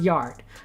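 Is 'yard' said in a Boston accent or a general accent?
general. It is said in a general, non-Boston accent. "I would pronounce it Yard"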